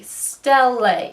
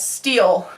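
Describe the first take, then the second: First: The word is not said like steel. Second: The word is said like steel. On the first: The speaker calls it right. "That's how it's actually pronounced" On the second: The speaker calls it wrong. "I always pronounce it as steel"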